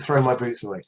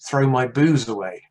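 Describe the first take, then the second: First: The word ends with a crisp t sound. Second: The word ends with a buzzing z sound. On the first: "It's called "Throw My Boots Away,"" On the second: "with the way she talked, it was actually "Throw My Booze Away." That's how she said it"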